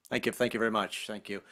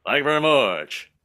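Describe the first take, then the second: First: Said in the usual way. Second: Slurred impersonator's sign-off. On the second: Acted. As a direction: mumble it with the King's Southern curl. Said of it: "every [name] impersonator I've ever seen".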